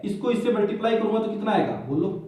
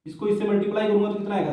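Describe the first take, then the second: First: Said in the usual way. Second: Rattled off fast; hurried teacher repeat; quick repeat. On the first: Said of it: "repeats the question". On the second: Shown as a demonstration. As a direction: fire the question again quickly. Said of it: "same question asked again".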